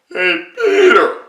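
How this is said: It is said in a very high, throaty voice. The speaker calls it right. "there's this very high up thing, and it's all in here, all in your throat"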